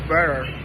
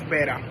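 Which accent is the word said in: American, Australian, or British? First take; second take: American; Australian. First: The word is said in an American accent. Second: The word is said in an Australian accent. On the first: "In American English" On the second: "In Australian English"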